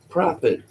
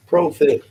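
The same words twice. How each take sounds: First: Prophet said with a short "ah", like PRAH-fit; short first vowel. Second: Prophet said with a long "oh", like PROH-fit; long first vowel. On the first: Calling a chatter by name, Prophet said as PRAH-fit. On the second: Calling a chatter by name, Prophet said as PROH-fit. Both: Shown as a demonstration. Tries two pronunciations of name.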